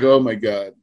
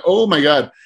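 First: Sinking realization. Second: Shocked exclaim. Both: Retold or imitated. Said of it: "And then I'm like".

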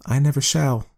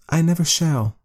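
First: Higher, firm wife; lightly voiced woman refusing; a hint of a firm wife; woman's voice. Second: High firm wife; woman's voice. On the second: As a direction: insist as the woman. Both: A narrator's reading. Woman character voice.

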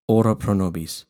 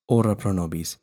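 Both takes have the same delivery.

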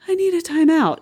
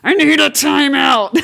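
First: A higher mock plea for a time out, pitched up; imitating the version that never happens; sulky time-out demand. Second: Slower, louder and a bit higher, leaning on need; mock-serious time-out call; firm time-out request. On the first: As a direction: whine it a little, half-joking. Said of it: "And it's never like". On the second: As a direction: say it slowly and firmly, like you mean it. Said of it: "It's more like".

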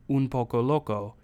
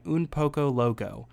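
First: Spanish accent. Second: Said in the usual way. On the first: Shown as a demonstration. Showing the song's flair, Spanish-accented "Un Poco Loco". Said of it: "in the actual kind of accented way". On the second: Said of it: "rather than just saying".

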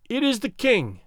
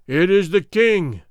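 First: Thin piping voice. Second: Loud, booming reply; booming crowd answer. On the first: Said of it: "piped out a thin voice". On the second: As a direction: boom it out like a whole army. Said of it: "boomed out eight thousand throats". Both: Acted.

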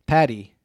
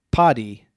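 First: "Patty" said like PAT-ee; short "a" as in cat in "Patty"; short first vowel. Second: "Paddy" said PAH-dee; broad first vowel. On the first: Host tries the surname another way, "Patty" with a short a. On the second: Host tries a contestant's surname, "Paddy" with a broad ah. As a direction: open "ah" in the first syllable of "Paddy". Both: Shown as a demonstration. Trying two pronunciations of a surname.

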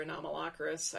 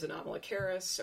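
First: Anomalocaris as a-nom-a-LOCK-a-ris; alternative pronunciation. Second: Anomalocaris as a-nom-a-lo-KAIR-is; CARIS pronunciation. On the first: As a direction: stress LOCK in the middle of Anomalocaris. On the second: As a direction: stress KAIR near the end of Anomalocaris. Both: Shown as a demonstration. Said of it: "one of those two pronunciations".

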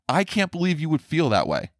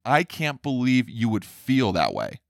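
First: Higher, incredulous mock parent; mock disbelief. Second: Said in the usual way. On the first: Parent scolding a child, in mock incredulous disbelief. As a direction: throw up your hands in mock disbelief at CAN'T.

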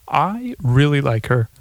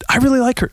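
First: Slipped-in comedian voice. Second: Said in the usual way. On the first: Acted. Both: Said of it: "Uh, excuse me. I'm very sorry".

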